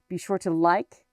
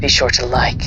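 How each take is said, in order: First: It is said in his normal voice. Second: It is said in a Mandalorian voice.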